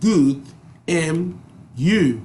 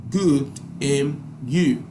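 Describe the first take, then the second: No difference in how they are said.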